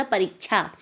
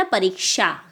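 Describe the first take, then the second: First: "परीक्षा" ending in chha, as parik-chha; common chha mistake. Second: "परीक्षा" ending in k-sha, as pareek-sha; correct sha sound. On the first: Retold or imitated. Teacher quoting what people say, "परीक्षा" with chha. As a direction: replace the क्षा of "परीक्षा" with च्छा. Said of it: "छा हो गया". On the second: Shown as a demonstration. Teacher correcting pupils, "परीक्षा" with sha. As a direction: end "परीक्षा" on a clear शा. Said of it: "शा का साउंड आता है".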